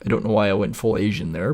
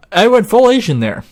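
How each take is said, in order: First: Said in the usual way. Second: "I went full Asian there" in an exaggerated Asian accent, much higher and louder; mock Asian accent. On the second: Repeating his line to viewers in a mock Asian accent. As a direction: repeat "full Asian" as a loud, hammed-up caricature.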